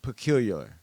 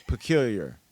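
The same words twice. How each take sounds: First: "Peculiar" with a slurred extra "luh" at the end; tongue-tied pronunciation. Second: Said in the usual way. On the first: Real, not acted. Host retrying a word she can't say, tongue-tied attempt. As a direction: stumble "Peculiar" into "puh-KYOOL-yuh-luh". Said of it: "How do I say the word?". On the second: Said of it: "how do you say this fucking word?".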